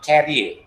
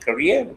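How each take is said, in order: First: It sounds like 'carrier'. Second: It sounds like 'career'. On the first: The speaker calls it wrong. "not carrier" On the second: The speaker calls it right. "You are supposed to pronounce it as career"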